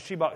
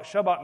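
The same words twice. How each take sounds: First: "Shabach" said with "shee" for its first syllable; exaggerated "ee" in the first syllable of "Shabach"; funny pronunciation. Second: "Shabach" said with "shuh" for its first syllable; short "uh" in the first syllable of "Shabach"; distinct pronunciation. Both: Shown as a demonstration. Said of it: "I had to pronounce it funny".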